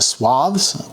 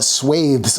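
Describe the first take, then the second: First: It is said the way American speakers say it. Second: It is said the way British speakers say it. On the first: "here in America, we call it swaths" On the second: "in a lot of uh, English, as in British English, people call it swathes"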